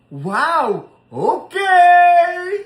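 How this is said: It sounds happy and cheerful.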